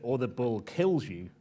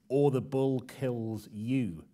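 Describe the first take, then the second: First: The stress falls on the verb, kills. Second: The stress falls on the last word, you.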